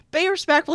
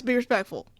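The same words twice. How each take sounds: First: High, loud telling-off; mock scolding. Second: Said in the usual way. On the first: Streamer scolding viewers for lusting, loud mock outrage. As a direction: scold them louder and higher, playfully.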